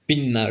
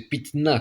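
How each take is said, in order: First: One long doubled n sound is heard. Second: Two different consonants, t then n, are heard. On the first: The speaker calls it right. "C'est pinna" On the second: The speaker calls it wrong. "Personne va prononcer pitna"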